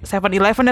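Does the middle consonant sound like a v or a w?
v. The middle consonant sounds like a v. The listener does not understand it. The speaker calls it wrong. "Terus kayak gak ngerti dong"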